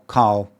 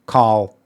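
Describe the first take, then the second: The two takes are said the same way.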